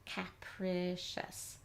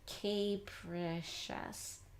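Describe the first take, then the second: First: The first syllable has a short a, like cap. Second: The first syllable has a long a sound. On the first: "We know this is cap" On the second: "the sound long A"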